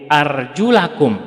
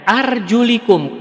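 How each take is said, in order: First: The vowel after the L is 'a'. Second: The vowel after the L is 'i'. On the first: "yang di fathah pada lamnya" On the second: "kasroh lamnya pada lamnya"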